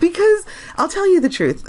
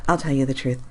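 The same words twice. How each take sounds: First: Still giggling. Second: Said in the usual way. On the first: Real, not acted. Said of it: "I can't stop laughing". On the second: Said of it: "getting comfortable in my chair".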